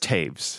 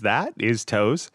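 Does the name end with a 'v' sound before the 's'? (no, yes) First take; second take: yes; no. First: It has an 'ay' vowel and a v sound. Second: It rhymes with 'nose', with no v sound. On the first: The speaker calls it right. "But it's Taves. The O-E makes an A and the W makes a V" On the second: The speaker calls it wrong. "my most common mispronunciation is Toes"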